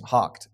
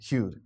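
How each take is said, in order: First: It is said with a k sound. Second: It is said with a yoo sound. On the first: The speaker calls it right. "H-O-U-G-H-E-D is hocked" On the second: The speaker calls it wrong. "It's not hewed"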